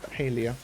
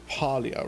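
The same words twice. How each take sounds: First: It is said imitating an American pronunciation. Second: It is said in the speaker's usual pronunciation. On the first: The speaker calls it wrong. "American streamer. She says Palia, and I found that very odd" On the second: The speaker calls it right. "We say Palia with a with a upper A"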